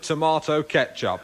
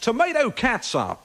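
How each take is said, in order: First: It is said in a British accent. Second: It is said in an American accent.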